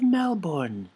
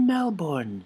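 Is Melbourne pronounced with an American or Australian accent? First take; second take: American; American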